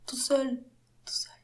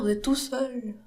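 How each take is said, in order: First: Whispering. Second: Said in the usual way. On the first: Shown as a demonstration. Whispered echo of "tout seul.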